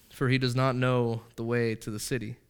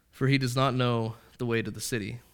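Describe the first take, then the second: No difference in how they are said.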